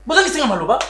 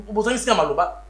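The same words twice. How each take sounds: First: Bozangi singa maloba said again higher and louder; emphatic repeat. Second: Said in the usual way. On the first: Acted. Repeating his rebuke to the family, louder and insistent.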